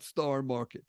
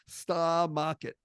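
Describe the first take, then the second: First: It is said in a standard American accent. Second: It is said in a Boston accent. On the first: "not Star Market" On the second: "I'm going to give you the Boston version"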